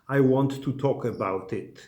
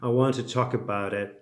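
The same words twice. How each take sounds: First: The t sounds are made with tongue on teeth. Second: The t sounds are softened in an American way. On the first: The speaker calls it wrong. "it's certainly not, ... It sounds bad" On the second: The speaker calls it right. "you can make it a little American"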